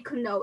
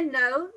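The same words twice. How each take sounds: First: "Kno" with an audible k before n; mispronounced "Kno". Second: Said in the usual way. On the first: Shown as a demonstration. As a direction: sound the silent k in "Kno", as a learner's error. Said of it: "You cannot say". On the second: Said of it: "there's no difference".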